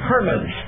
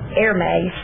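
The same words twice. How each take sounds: First: The name does not sound like the brand. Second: The name sounds like the scarf brand. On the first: The speaker calls it right. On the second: The speaker calls it wrong.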